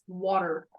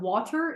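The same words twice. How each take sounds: First: The middle T sound is left out. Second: The middle T sound is clearly pronounced. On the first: "you just X out the T" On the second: "instead of"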